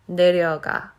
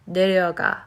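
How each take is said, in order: Both takes have the same delivery.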